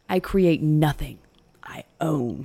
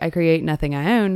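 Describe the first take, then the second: First: There is a full stop pause after nothing. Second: It runs on with no pause after nothing.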